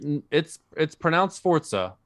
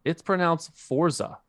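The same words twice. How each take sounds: First: Higher-pitched counter-correction, Forza said "fort-sa". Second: Higher-pitched correction, Forza as FOR-zuh with a buzzing z; Forza without T. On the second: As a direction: correct someone: Forza, plain z and no t. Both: Retold or imitated. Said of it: "There's no T in there".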